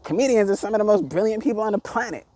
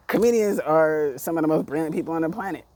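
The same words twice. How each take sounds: First: Getting hyped. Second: Said in the usual way. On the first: Real, not acted. Ranting vlogger praising comedians, hyped and pitched higher. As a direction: pitch jumps higher, voice carried up by hype. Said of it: "My voice is going up". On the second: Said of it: "So I'm getting hyped".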